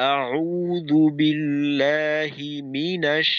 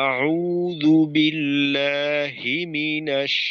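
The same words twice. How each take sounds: First: The push falls on the syllable 'mi'. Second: The push falls on the syllable 'hi'. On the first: The speaker calls it right. "মিমে ধাক্কা দিলাম, মিমে একটু জোর দিলাম" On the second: The speaker calls it wrong. "হায় ধাক্কা দেওয়া"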